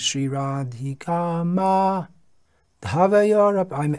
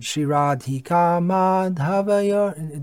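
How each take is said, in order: First: There is a gap between ma and dha. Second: It flows as one word without a gap. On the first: The speaker calls it wrong. "I'm extending the gap" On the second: The speaker calls it right. "it has to be pronounced as one word"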